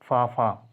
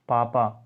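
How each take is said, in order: First: The p sounds are said with a puff of air. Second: The p sounds are said without a puff of air.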